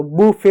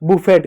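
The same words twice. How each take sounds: First: बुफे said "boo-fay", silent t; correct pronunciation. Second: बुफेट with the final t sounded; mispronunciation. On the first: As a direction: end बुफे on an open "ay". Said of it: "बुफे होता है". (बुफे, आखिर का 'ट' चुप) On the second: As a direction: say बुफेट ending on a hard t. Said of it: "गलत हो". (बुफेट, आखिर का 'ट' बोलकर) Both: Shown as a demonstration.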